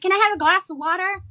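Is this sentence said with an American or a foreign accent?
American. It is said with an American accent. Listeners understood it. The speaker calls it right. "And then they all understood you"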